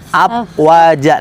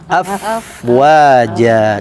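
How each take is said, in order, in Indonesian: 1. Huruf f dibuat dengan kedua bibir rapat. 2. Huruf f dibuat dengan gigi atas di bibir bawah. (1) "bibirnya tidak boleh rapat" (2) "Ujung gigi seri atas bertemu dengan bibir bawah"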